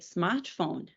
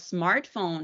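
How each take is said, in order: First: It is said with a Brazilian Portuguese accent. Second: It is said with an English accent.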